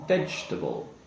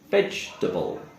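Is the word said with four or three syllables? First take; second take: three; three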